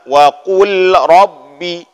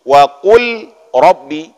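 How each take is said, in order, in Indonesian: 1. Kata-katanya terpisah, dengan bunyi l yang jelas. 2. Kata-katanya terpisah, dengan bunyi l yang jelas.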